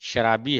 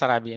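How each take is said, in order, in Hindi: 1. यह शब्द sh ध्वनि से शुरू होता है। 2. यह शब्द सामान्य s ध्वनि से शुरू होता है। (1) "शराबी है, क्योंकि शराब से आया वर्ड" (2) "हम बोल रहे हैं शराबी, नहीं"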